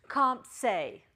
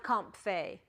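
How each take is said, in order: First: "comp se" with a clear s sound, as in psi; corrected pronunciation. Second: "comp fe" with an f sound, as in phi; wrong pronunciation. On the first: Teacher giving students the corrected Greek sound. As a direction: say "comp se", s not f, slow and clear. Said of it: "So correct your phonetics". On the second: Teacher contrasting the old wrong reading with the right one. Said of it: "not comp fe". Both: Shown as a demonstration.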